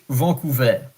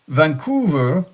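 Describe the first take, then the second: First: The name is pronounced the French way. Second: The name is pronounced the English way. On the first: "in French" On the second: "in English"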